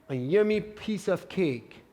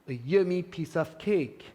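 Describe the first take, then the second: The two takes are said the same way.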